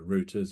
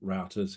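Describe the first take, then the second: First: The word is said in a non-American way. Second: The word is said the American way.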